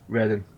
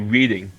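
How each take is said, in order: First: The name is said the local way. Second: The name is said the way it looks. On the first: This is the real pronunciation. The speaker calls it right. "but it's" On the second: This is how it looks like it should be said. The speaker calls it wrong. "Looks like you should say"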